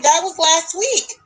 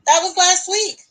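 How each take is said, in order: First: Slow, stunned, higher; shocked disbelief. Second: Louder disbelief. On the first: Realizing the wedding photo is from last week, stunned. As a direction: say it like the floor just dropped. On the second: Repeating to the friend that the wedding was last week, stunned. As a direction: stress on LAST, higher and insistent. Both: Retold or imitated.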